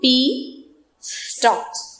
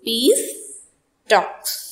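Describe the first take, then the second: First: The break falls before the s sound. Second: The break falls after the s sound. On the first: It means the stalks of pea plants. "The other one is" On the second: It means talks held for peace. "I have made a pause after peace"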